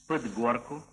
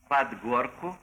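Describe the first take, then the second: First: The vowel in 'под' is a reduced, unclear sound. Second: The vowel in 'под' sounds like a clear 'a'. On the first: The speaker calls it wrong. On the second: The speaker calls it right.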